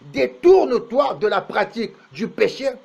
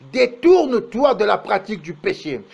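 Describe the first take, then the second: No difference in how they are said.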